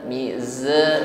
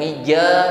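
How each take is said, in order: First: The middle consonant is a hissing z. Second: The middle consonant is a j sound. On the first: The speaker calls it right. "huruf zai diucapkan jangan sampai tertinggal bunyi desisnya" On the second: The speaker calls it wrong. "Jangan mija seperti huruf jim"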